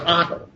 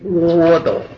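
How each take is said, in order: First: The first syllable is an open 'a' vowel. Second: The first syllable sounds like 'wo'. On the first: The speaker calls it right. "你只能念阿" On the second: The speaker calls it wrong. "你一个小孩小名叫窝斗，有这样起小名的吗？"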